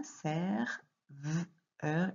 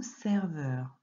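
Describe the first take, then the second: First: "ser, v, heure" in separate pieces, v held alone; split into sounds. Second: Said in the usual way. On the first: Shown as a demonstration. Teacher shows pupil both syllables, "ser, v, heure" sounded out apart. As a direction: break "serveur" into ser, then v, then eur. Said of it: "qu'on va entendre dans la première syllabe". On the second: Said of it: "Et alors maintenant".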